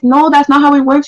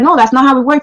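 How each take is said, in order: First: It is said in a soft voice. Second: It is said in an ordinary voice.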